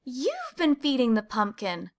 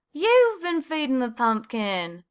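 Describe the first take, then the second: First: A hint of a surprised mouse, slightly raised; discovering the secret, mildly surprised; lightly voiced Clayton. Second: Slow, higher echo in another mouse voice; Desmond's voice. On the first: Clayton to Desmond after bumping heads, mild surprise. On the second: Desmond echoing Clayton at the pumpkin, slow and higher. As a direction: draw it out as the second mouse. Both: A narrator's reading.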